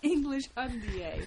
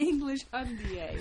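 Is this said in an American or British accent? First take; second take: British; British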